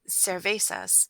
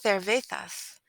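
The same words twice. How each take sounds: First: The C is said with an s sound. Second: The C is said with a th sound. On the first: This is how American speakers say it. "in American we would say" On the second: This is how it is said in Spain. "you use the th sound for the letter C"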